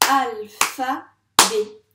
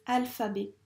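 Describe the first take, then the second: First: "Alphabet" loud, in three long separate beats; syllable by syllable. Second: Said in the usual way. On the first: Shown as a demonstration. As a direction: clap out "Alphabet" loudly, one syllable per beat. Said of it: "On tape ça ensemble?". (« Alphabet » scandé fort et lentement, syllabe par syllabe) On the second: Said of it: "du mot alphabet".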